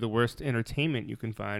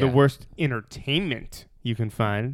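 First: It is said plainly, without sarcasm. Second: It is said with a sarcastic tone.

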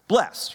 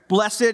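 First: The word is said in an everyday way. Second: The word is said in a churchy way.

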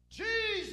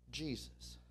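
First: It is cried out loudly. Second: It is said quietly and plainly.

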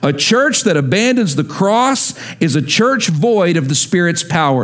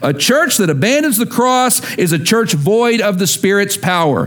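First: It is said calmly with ordinary energy. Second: It is said forcefully with extra energy.

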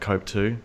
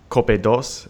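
First: The number is said as English 'two'. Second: The number is said as Spanish 'dos'. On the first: This is the name as it actually is. The speaker calls it right. "it was actually" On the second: This is how people in Spain said the name. The speaker calls it wrong. "the way they pronounce their name"

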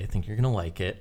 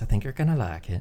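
First: It is said in the speaker's normal voice. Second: It is said imitating the therapist's voice.

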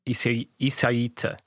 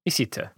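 First: The name is said with four syllables. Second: The name is said with three syllables. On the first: The speaker calls it right. "because there's four syllables" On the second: The speaker calls it wrong. "I do think you're cutting out a syllable or something"

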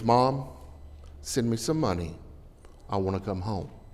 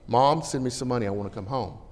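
First: The letter is read in a gentle, pleading tone. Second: The letter is read in a somewhat softer tone. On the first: The son sounds sincere and homesick. "I'll give him every dime I've got" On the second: The son sounds less demanding. "his tone's a little bit better"

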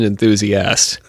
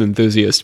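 First: The word is pronounced in a harsher way. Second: The word is pronounced in a gentler way. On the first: "Monsieur Von Däniken, not so much" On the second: "there's certain people who get the gentler pronunciation"

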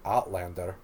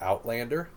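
First: It is said in a put-on Scottish accent. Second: It is said in a plain, everyday accent.

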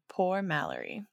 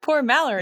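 First: It is said flatly, without excitement. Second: It is said excitedly, like an exclamation.

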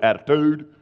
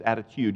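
First: The last syllable is plain, without y: tude. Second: The last syllable has a y sound: tyude. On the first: "We've just cut it short" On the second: "It's attitude with a Y in there"

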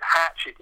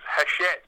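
First: The name is said like the English word hatchet. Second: The name is said the French way, ash-ett. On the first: "I love the way you pronounce it" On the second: "it's actually pronounced Hachette"

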